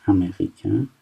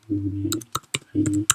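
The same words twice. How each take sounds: First: Said in the usual way. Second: امریکن drawn out slowly and softer; slow soft repeat. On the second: Shown as a demonstration. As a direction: slowly spell out امریکن for the class.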